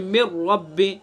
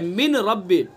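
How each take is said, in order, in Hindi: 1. n silent है और r में मिल जाता है। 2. n का r से पहले साफ़ उच्चारण होता है। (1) "कैसे पढ़ेंगे? मिर रब्बी" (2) "असल है क्या? मिन रब्बी है"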